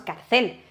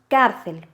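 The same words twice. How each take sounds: First: The stress is on the last syllable. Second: The stress is on the first syllable. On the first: The speaker calls it wrong. "no decimos cárcel" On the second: The speaker calls it right. "decimos cárcel"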